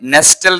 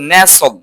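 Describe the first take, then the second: First: The t sound is pronounced. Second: The t sound is silent. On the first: The speaker calls it wrong. "Not নেস্টল" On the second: The speaker calls it right. "টিটা silent থাকবে"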